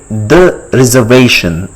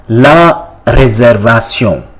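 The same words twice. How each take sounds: First: Said in the usual way. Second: "La réservation" slowly as la ray-zair-va-syon; French pronunciation. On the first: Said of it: "How do you say". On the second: Shown as a demonstration. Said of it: "in French".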